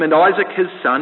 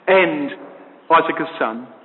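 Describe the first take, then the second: First: The phrase is read at a quick pace. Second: The phrase is read at a slow pace. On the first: "Now you can read it quickly, just like I did" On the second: "Now read it slowly, and look at the emphasis of the verse"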